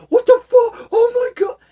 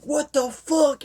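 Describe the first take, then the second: First: Much higher, louder panicked yell; freaking out. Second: High, slow mock disbelief; shocked disbelief. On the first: Retold or imitated. Man wrecking coworkers' computers, screaming in panic. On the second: Man reading a creepy list, shocked and slow. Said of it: "And he's like".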